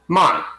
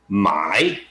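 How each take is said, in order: First: It carries the tone meaning to sell. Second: It carries the tone meaning to buy. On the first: Someone wants to sell something. "but if you want to sell something" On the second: Someone wants to buy something. "if you want to buy something"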